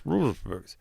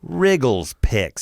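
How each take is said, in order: First: The words are run together and slurred. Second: Each sound is pronounced clearly and separately. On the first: The speaker calls it wrong. "So you went like this" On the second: The speaker calls it right. "If you say it clear"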